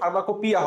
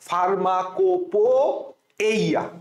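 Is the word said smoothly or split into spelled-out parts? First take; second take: smooth; split. First: The word is said smoothly as one whole. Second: The word is split into spelled-out separate parts. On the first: This is the real pronunciation. The speaker calls it right. "আসলে সঠিক মানে উচ্চারণ বললে ফার্মাকোপিয়া হয়" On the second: This helps remember the spelling. The speaker calls it wrong. "এই জিনিসটাকে একটু নষ্ট করে ফেলাবো"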